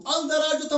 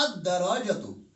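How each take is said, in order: First: "अल-दराजतु" with a clear L, higher and louder; loud, raised demo of unmerged "अल-दराजतु"; wrong reading, L sounded. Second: "अद्दराजतु" with silent L and doubled D; correct assimilated reading. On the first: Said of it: "अल-दराजतु हमने नहीं पढ़ा". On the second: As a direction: merge the article into a held D in "अद्दराजतु". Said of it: "हमने पढ़ा अद्दराजतु". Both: Shown as a demonstration.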